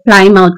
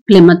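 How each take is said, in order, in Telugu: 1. పదం పూర్తి 'mouth' ధ్వనితో ముగుస్తుంది. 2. పదం తగ్గించిన 'muth' ధ్వనితో ముగుస్తుంది. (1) "స్పెల్లింగ్ అనేది ప్లైమౌత్ లాగా ఉంటుంది" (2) "ప్రొనౌన్స్ అనేది ప్లిమత్ లాగా చేస్తారు"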